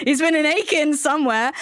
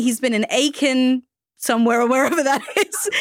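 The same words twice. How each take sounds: First: Said in the usual way. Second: Said through a laugh; giggling while she talks. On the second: Real, not acted. Host laughs introducing guest.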